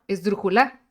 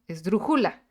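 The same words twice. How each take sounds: First: The stress is on the last syllable. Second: The stress is on the second syllable.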